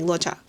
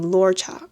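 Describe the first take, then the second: First: No R sound follows the first vowel. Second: A faint R sound follows the first vowel. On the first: "if you omit it, it's like Locha" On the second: "lore, but do like an omit the R like a little bit"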